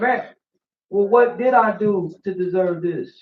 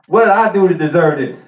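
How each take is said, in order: First: It sounds humble and meek. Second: It sounds proud and arrogant.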